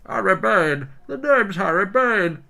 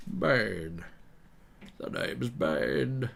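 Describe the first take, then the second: First: High, loud, slow comic villain; Harry Bane. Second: Slow, put-on villain voice; Bane. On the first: Acted. Footballer-villain mash-up announcing himself, Harry Bane voice. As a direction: belt it out in a hammed-up high voice. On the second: Villain introducing himself on request, Bane impression. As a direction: draw it out as a film villain. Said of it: "asked me to do Bane".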